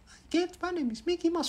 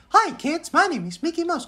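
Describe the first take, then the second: First: Soft, very high falsetto; Mickey Mouse. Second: Very high cartoon falsetto; Mickey Mouse. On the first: Retold or imitated. Child copying the TV cartoon, soft falsetto. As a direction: copy the cartoon squeak quietly. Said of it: "Gue tiruin". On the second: Cartoon mouse greeting kids, very high falsetto. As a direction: squeak a cheery character greeting. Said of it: "Mickey Mouse kayak ngomongnya".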